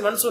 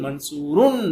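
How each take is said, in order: First: The word ends without any added 'un' sound. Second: The word ends with an added 'un' sound. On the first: "ஷார்ட்டா சொல்லிட்டு போயிடலாம்" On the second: "தன்வீன் உள்ள வார்த்தையை நான் தன்வீன்லயே உங்களுக்கு சொல்லி"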